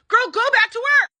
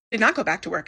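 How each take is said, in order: First: High, loud, pleading command; exasperated scolding. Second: Said in the usual way. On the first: Real, not acted. Recapper scolding Julia through the screen, fed up. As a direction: yell it at her like a fed-up friend.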